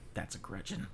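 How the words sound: It is said in a friendly tone.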